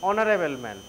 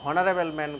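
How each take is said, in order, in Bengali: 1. Honorable শব্দটি স্বরধ্বনি দিয়ে শুরু, এতে h নেই। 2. Honorable শব্দটি h ধ্বনি দিয়ে শুরু। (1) "অনার উচ্চারণটা হবে অনার" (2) "যদি এটাই উচ্চারণ কেউ হনারেবল ম্যান করে"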